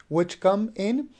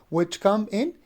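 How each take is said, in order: Both takes have the same delivery.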